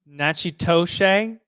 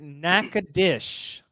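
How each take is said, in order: First: The name is said with a 'ch' sound, ending 'toshe'. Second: The name is said with a 'k' sound, ending 'dish'. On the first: It is a guess from reading the spelling. The speaker calls it wrong. "Th- that's a good guess" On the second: It is how local people say the name. The speaker calls it right. "We pronounce it Nakadish, which I know seems insane"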